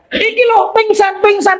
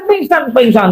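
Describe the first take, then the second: First: High alarmed pingsan pingsan; panicked cry. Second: Said in the usual way. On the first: Acted. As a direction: blurt it out in a fright, pitched high. Frightened report of a fainting.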